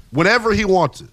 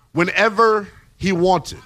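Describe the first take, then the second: First: Said in the usual way. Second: WHENEVER drawn out slowly; slow emphasis. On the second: Shown as a demonstration. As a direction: let "whenever he wanted" land slowly.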